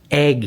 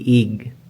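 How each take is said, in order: First: The vowel is an open 'eh' sound. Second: The vowel is a closer 'ih' sound. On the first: The speaker calls it right. "egg, hindi ig" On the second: The speaker calls it wrong. "hindi ig"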